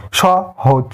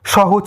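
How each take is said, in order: First: সহজ broken into two separate syllables; সহজ split into syllables. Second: Said in the usual way. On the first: Shown as a demonstration. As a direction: pause between স and হজ. (সহজ শব্দটি দুই দলে ভেঙে) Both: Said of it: "দল বিশ্লেষণ করলে দুটি দল পাই".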